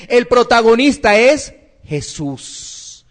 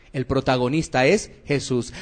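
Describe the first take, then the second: First: Slow, drawn-out "El protagonista es Jesús"; measured, emphatic delivery landing on "Jesús"; emphatic proclamation. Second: Lower, softer "El protagonista es Jesús"; quiet, low repeat for gravity; hushed restatement. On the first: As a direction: proclaim "Jesús" slowly as the answer. Preacher drives home the point. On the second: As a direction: drop the voice and let "Jesús" settle. Preacher repeats the point softly. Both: Real, not acted.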